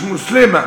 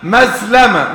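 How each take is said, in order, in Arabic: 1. الاسم يُقال Muslima. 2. الاسم يُقال Maslama. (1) "مش مسلمه" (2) "مسلمه مش مسلمه"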